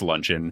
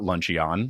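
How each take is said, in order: First: It sounds like the ordinary English word. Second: It sounds like a made-up Pokemon name. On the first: The speaker calls it right. "it's Luncheon" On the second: The speaker calls it wrong. "it's not Luncheon, like it's a Pokemon"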